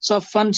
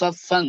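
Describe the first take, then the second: First: The final n is pronounced as a clear n. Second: The final n becomes a nasalized sound. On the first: "সফান ছিল" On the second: "হবে উচ্চারণ কি সফাং, অনুস্বার হয়ে যাবে"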